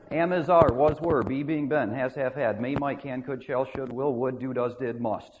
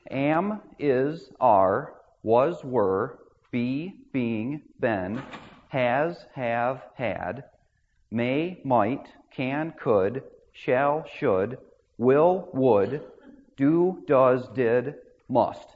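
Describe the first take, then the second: First: The list is recited at a faster pace. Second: The list is recited at a slower pace.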